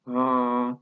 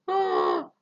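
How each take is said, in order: First: It is said at a low pitch. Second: It is said at a high pitch. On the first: "طبقة واطية" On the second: "واحد طبقة عالية"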